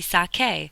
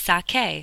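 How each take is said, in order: First: The middle consonant is a k sound. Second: The same.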